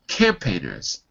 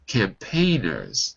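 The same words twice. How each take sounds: First: The stress is on the first syllable. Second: The stress is on the second syllable. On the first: The speaker calls it wrong. "That would be wrong in the first syllable" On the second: The speaker calls it right. "second syllable"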